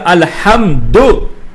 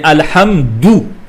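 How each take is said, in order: First: The final vowel is an o sound. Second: The final vowel is an oo sound. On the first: The speaker calls it wrong. "il ne faut pas dire alhamdo" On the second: The speaker calls it right. "mais alhamdou"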